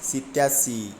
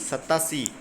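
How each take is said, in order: First: The first syllable has an 'i' vowel. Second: The first syllable has an 'a' vowel. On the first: The speaker calls it wrong. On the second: The speaker calls it right.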